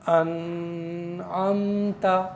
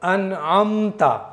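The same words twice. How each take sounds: First: The n sound is held for a long time. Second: The n sound is said quickly. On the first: The speaker calls it wrong. "देर लगा करके पढ़ना है अनअमता, इस तरह से नहीं पढ़ेंगे" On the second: The speaker calls it right. "जल्दी पढ़ना है"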